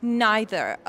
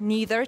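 First: NEITHER said with an "eye" vowel; British pronunciation. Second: NEITHER said with a long "ee"; American pronunciation. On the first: Teacher showing the harder British form, "neither" as NIGH-ther. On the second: Teacher repeating the American form for learners, "neither" as NEE-ther. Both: Shown as a demonstration.

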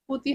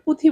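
First: পুঁতি with nasal পুঁ and plain unaspirated তি; correct pronunciation. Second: পুঁথি said with a nasal পুঁ and aspirated থি; mispronounced word. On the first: Student correcting her viva slip, পুঁতি with plain t. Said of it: "পুঁতি হবে". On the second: Student retelling her viva slip, saying পুঁথি with aspirated th. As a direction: say পুঁথি with breathy th, the wrong way. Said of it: "পুতির জায়গায় পুঁথি". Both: Shown as a demonstration.

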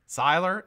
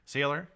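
First: "Siler" with an eye sound in the first syllable; alternative pronunciation. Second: "Sealer" with a long ee in the first syllable; trying a pronunciation. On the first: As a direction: say "Siler" as SIGH-ler, questioning. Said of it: "Is that how you say it". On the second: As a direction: say "Sealer" as SEE-ler, questioning. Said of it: "do I say your name right now?". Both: Shown as a demonstration.

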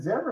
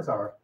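First: Zara said as ZAIR-uh; Zara, first syllable rhyming with "air"; first pronunciation of Zara. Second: Zara said as ZAR-uh; Zara, first syllable rhyming with "car"; second pronunciation of Zara. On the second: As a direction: say Zara with an "ah" vowel. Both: Shown as a demonstration. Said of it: "Is it Zara or Zara?".

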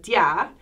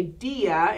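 First: Dia run together as one syllable, dyah; dia as dyah, stress on the a; blended diphthong. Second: Dia as DEE-ah, stressed on the i; dia in two beats, DEE then ah; two syllables. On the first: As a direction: say dia with the i gliding into the a. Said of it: "get blended into what's called a diphthong". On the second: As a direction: say dia with a strong, separate i. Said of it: "the reason I say dia". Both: Shown as a demonstration.

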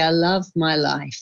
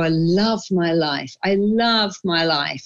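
First: Said in the usual way. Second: Slow and fond, each love leaning down; slow, savoring affirmation. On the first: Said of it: "just say". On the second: Shown as a demonstration. Telling the host how she starts her day, slow and savoring. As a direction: savor every word like a morning vow. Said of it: "I wake up and I go".

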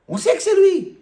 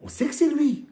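First: Exasperated. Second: Said in the usual way. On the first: Shown as a demonstration. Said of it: "on se calme un peu". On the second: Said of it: "mais calme-toi".

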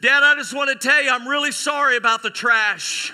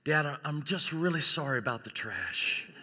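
First: Loud, high, overdone sorry; hammed-up public apology. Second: Soft, hesitant acted sorry; subdued apology. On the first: Graduate apologizes to dad over the mic, loudly hammed-up. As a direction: blurt the apology out to the whole hall. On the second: New mother apologizes to dad at hospital, subdued. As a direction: confess it quietly, as at a bedside.

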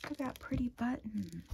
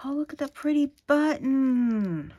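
First: Softer, hushed echo of the delight; soft repeat. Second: Higher, louder, thrilled cry of delight. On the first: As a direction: murmur it back to yourself. Repeats softly to herself. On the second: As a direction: gush over the pretty button. Delighted at a button. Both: Real, not acted.

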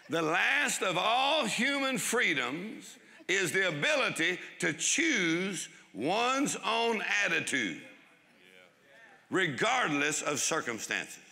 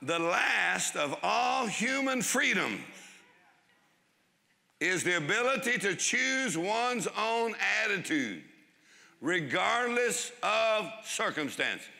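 First: Slow, higher, weighty reading of a famous line; preacher reading Frankl's quote slowly and solemnly. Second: Slow, higher, each phrase weighed out; preacher repeating Frankl's quote slowly and deliberately; slow emphatic repeat. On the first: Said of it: "Viktor Frankl said what". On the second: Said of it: "go over that one more time". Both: Shown as a demonstration.

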